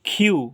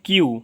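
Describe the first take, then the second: First: The first consonant has a puff of air. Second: The first consonant has no puff of air. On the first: The speaker calls it right. "But এটা সঠিক উচ্চারণ হবে খিউ" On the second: The speaker calls it wrong. "এটা জানছি কিউ"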